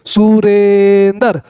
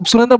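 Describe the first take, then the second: First: Very slow "Surendra", long held "re"; drawn-out word. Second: Said in the usual way. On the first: Shown as a demonstration. Teacher telling students to say it aloud, drawn out. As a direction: hold the middle vowel of "Surendra", then land "ndar". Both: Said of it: "Surendra बोल के देखिए".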